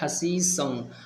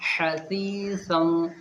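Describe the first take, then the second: First: The consonant is a plain hissing 's' sound. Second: The consonant is a 'th' sound, tongue at teeth. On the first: The speaker calls it wrong. "ज़्यादातर लोग पढ़ते हैं हसीसन, और हसीसन होता नहीं" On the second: The speaker calls it right. "सही क्या है? हसीसन"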